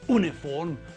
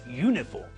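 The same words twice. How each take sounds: First: It starts with a plain vowel sound. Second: It starts with a 'y' consonant sound. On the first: The speaker calls it wrong. "We don't say uniform" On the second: The speaker calls it right. "they sound as though the first letter is not a vowel"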